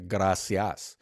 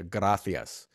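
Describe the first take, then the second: First: The c is pronounced like an s. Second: The c is pronounced like a th. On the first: "you learn how to say gracias with the C-I-A-S" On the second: "Then you get to Spain and it's with a T-H"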